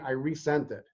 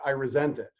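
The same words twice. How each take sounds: First: Resent is said as ree-sent, meaning sent again. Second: Resent is said as rih-zent, meaning feel bitter. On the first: The email was sent a second time. "the teacher tech emailed the, the parent saying" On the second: The writer is upset and feels bitter. "the parent read it as"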